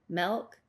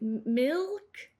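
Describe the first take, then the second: First: The vowel sounds like eh. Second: The vowel sounds like ih. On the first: "This is more of an accent uh, term" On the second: "What we are trying to say as Northwesterners is"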